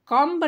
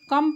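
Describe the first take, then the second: First: "कम्ब" with the b sounded, the wrong way; "कम्ब" with a spoken b, shown as a mistake; wrong pronunciation. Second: "कम" said with a silent b; "कम" as the correct reading, b silent; right pronunciation. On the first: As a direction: say "कम्ब" ending on a clear b. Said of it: "कम्ब नहीं पढ़ेंगे". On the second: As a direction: say "कम", no b at the end. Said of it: "यहाँ पर कम पढ़ेंगे". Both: Shown as a demonstration.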